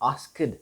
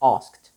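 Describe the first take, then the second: First: The ending is not a clean t sound. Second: The ending is a clean t sound. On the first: The speaker calls it wrong. "So we do not say asked" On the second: The speaker calls it right. "The ed ending is changed into the t sound"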